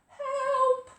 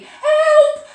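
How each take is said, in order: First: It is said quietly. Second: It is said loudly.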